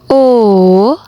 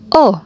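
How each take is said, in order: First: The vowel carries the third tone. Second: The vowel carries the fourth tone. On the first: "nada yang ketiga" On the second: "nada yang keempat"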